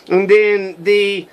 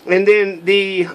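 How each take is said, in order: Both takes have the same delivery.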